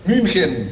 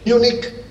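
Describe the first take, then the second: First: The name is said with German pronunciation. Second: The name is said with English pronunciation. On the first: "Y en alemán" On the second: "En inglés"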